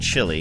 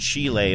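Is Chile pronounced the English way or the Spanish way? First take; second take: English; Spanish. First: The name is said with an English pronunciation. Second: The name is said with a Spanish pronunciation. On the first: This is the familiar way from childhood. "I grew up saying Chile" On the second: This is the proper, native pronunciation. "I know that it's pronounced Chile"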